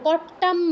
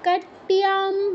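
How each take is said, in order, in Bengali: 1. সাধারণ দ্বিত্ব t, কোনো glide নেই। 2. t ধ্বনির পরে y-glide আসে। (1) "কট্টাম বলবো না কেউ" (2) "খেয়াল করে উচ্চারণ করব"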